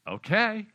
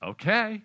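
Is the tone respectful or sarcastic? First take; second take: sarcastic; sarcastic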